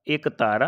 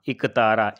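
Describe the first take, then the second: First: एकतारा said with a long ए at the start; wrong form given. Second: इकतारा said lower, with इ not ए at the start; correct form given. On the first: Teacher shows students the wrong form, एकतारा with a clear ए. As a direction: say एकतारा, opening on a long ए, as the mistake. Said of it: "एकतारा नहीं होगा". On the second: Teacher gives the right answer to her own question, इकतारा said low. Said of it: "क्या होगा?". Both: Shown as a demonstration.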